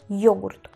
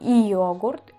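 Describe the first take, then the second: First: It starts with a y glide straight into the o. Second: It starts with a separate i sound before the o. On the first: The speaker calls it right. "digo yogurt, como si estuviésemos con una Y y una O" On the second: The speaker calls it wrong. "yo no digo y yogurt"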